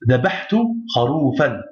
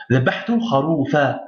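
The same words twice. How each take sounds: First: Kharoufan said with a final n; wrong ending. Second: Kharoufa ending on an open a with no n; pausal ending. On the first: Teacher gives students the wrong pausal ending. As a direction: end kharoufan on an n, as the rejected pausal form. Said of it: "Non, le, plutôt on dira". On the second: Teacher corrects to the pausal form for students. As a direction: stop on the a of kharoufa, dropping the n. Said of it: "plutôt on dira". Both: Shown as a demonstration.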